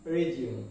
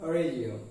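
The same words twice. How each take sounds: Both takes have the same delivery.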